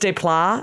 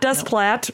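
First: The final T sound is silent. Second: The final T sound is pronounced. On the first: The speaker calls it right. "maybe it's Desplat, and I shouldn't have pronounced that T" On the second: The speaker calls it wrong. "it's not Desplat, no"

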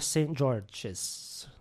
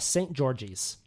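First: The name is said with a French accent. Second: The name is said with an English accent. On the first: "Rate that French accent"

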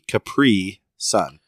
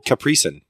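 First: The 'pri' syllable gets a big emphasis. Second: It is rolled together like one word.

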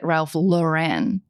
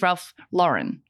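First: Lauren is said in a fancier, altered way. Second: Lauren sounds like the plain girl's name. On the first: It is meant to sound more sophisticated. "people made it Ralph Lauren to make it sound more fancy" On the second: This is the name's real form. "His name is Ralph Lauren, like the girl's name"

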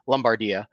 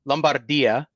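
First: It is said with an American accent. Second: It is said with an Italian accent. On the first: "Or if you're American" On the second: "There's the Italian pronunciation"

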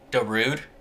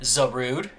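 First: The name begins with a D sound. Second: The name begins with a Z sound. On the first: The speaker calls it wrong. "we completely mispronounced" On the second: The speaker calls it right. "Zarud is the legendary grass dark Pokemon"

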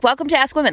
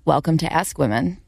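First: It is said quickly with a bright, happy energy. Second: It is said slowly with a calm, low energy. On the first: The speaker calls it wrong. "I don't like the way that makes the tone of my voice sound" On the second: The speaker calls it right. "when I slowed it down"

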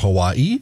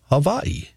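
First: The middle consonant is a W sound. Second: The middle consonant is a V sound. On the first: This is the usual mainland English way. "instead of Hawaii or Hawaii, as we might say" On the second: This is how people from Hawaii say it. "you might hear people from there say Hawaii or Hawaii"

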